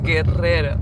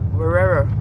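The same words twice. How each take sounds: First: The R is strongly rolled with a trill. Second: The R is soft, without a trill. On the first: This is the Spanish way to say it. The speaker calls it right. "But it's a really heavy R" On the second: This is how most Americans say it. The speaker calls it wrong. "most Americans pronounce it Guerrero"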